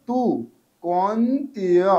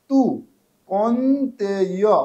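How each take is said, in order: Both takes have the same delivery.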